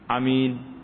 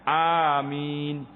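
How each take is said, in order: First: The first vowel is said short. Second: The first vowel is drawn out long. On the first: "Pendek eh?" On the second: "kalau kita baca a dengan mat panjang"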